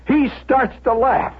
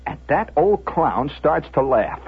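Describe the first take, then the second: First: Higher-pitched, incredulous emphasis; indignant repeat. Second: Said in the usual way. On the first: A narrator's reading. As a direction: repeat it in rising outrage.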